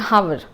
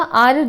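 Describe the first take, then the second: First: The word begins with a clear h sound. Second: The word begins directly with a vowel sound. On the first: The speaker calls it wrong. "They just speak like this कि हावर" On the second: The speaker calls it right. "इसका correct pronunciation आर है"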